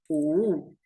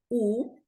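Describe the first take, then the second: First: The vowel is held twice as long. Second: The vowel is held briefly.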